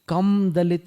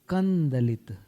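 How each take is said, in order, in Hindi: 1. d से पहले स्पष्ट म बोला जाता है। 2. अनुनासिक d में सहजता से मिल जाता है।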